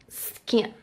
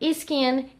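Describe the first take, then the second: First: The word starts directly with the S sound. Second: A short vowel sound comes before the S. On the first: The speaker calls it right. "It's better if you pronounce the S" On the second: The speaker calls it wrong. "Brazilians, they have this habit... but it's not the correct pronunciation"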